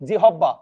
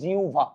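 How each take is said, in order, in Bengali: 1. মাঝের অংশটি h দিয়ে এবং দ্বিত্ব b দিয়ে উচ্চারিত হয়। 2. মাঝের অংশটি u এবং তারপর bh হিসেবে উচ্চারিত হয়। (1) "আপনি দেখেন তো এরকম কি উচ্চারণ করেন? আরে না ভাই" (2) "এটা হবে উচ্চারণ আজকে থেকে জিউভা"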